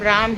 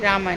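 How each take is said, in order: First: The name ends on the consonant m. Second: The name ends with an added a vowel. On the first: The speaker calls it right. "भगवान का नाम राम है" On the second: The speaker calls it wrong. "रामा नहीं"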